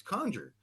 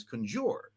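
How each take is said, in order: First: Conjure said CON-jer, stress on the first syllable, open o; right pronunciation. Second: Conjure said con-JURE, stress on the second syllable; mispronunciation. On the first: Jack Benny correcting the director's pronunciation, says conjure as KON-jer. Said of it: "that's not the right pronunciation". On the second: Director explaining the gag line, says conjure as kun-JOOR. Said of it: "mispronouncing the word conjure as". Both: Retold or imitated.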